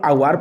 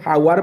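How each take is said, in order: First: The word starts directly with a vowel sound. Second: The word starts with a clear h sound. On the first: The speaker calls it right. "एचटा silent" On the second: The speaker calls it wrong. "हावार पढ़ीदा कथा"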